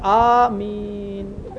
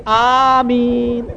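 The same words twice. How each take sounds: First: Long Ameen fading away softly; Ameen tailing off. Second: Long drawn-out, ringing Ameen; prayer "Ameen" blurted aloud. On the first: Lone worshipper hears nobody joining in, Ameen fading out. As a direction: start the Ameen, then let it die down. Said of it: "کسی کی آواز نہیں آ رہی". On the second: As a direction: stretch the Ameen out at full voice. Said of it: "میرے منہ سے نکل گئی". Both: Retold or imitated.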